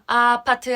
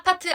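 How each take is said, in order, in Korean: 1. 원곡 억양으로 말했어요. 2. 경상도 억양으로, 톤을 높여서 말했어요. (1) "원래 노래에서 아파트" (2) "톤 높여서"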